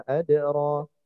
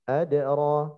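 Both takes have the same delivery.

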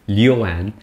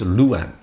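First: The first syllable is pronounced liu. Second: The first syllable is pronounced lu. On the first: This is the common reading by outsiders. The speaker calls it wrong. "people see that and they think it's Liu" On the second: This is how local people say it. The speaker calls it right. "locals, it's Luan"

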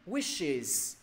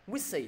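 First: The word ends in an 'iz' sound. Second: The word ends in an 'ee' sound. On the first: The speaker calls it right. "Đúng rồi đó" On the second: The speaker calls it wrong. "Thầy nghe thành thành từ khác rồi đó. Wishy, no no"

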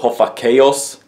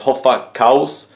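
First: The name has a foreign, anglicized pronunciation. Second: The name has a native Swedish pronunciation.

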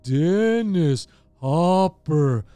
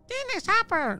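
First: It is said slowly in a low voice. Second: It is said in a squeaky mouse voice.

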